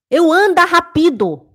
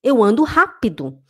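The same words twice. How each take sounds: First: "rápido" as ra-PI-do, high and loud; mock foreigner hitting PI in "rápido"; loud, higher line with "rápido" mis-stressed; wrong foreign stress. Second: "rápido" stressed on RÁ; natural line with "rápido" as RÁ-pi-do; correct stress. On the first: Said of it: "É assim que os alemães escutam". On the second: Shown as a demonstration. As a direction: put the accent first in "rápido". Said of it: "é rápido".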